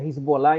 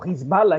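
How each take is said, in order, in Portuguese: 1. O nome é dito com sons de estilo português. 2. O nome é dito com sons de estilo árabe. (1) "que se pronuncia Hezbollah em português e em inglês" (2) "que é o nome verdadeiro"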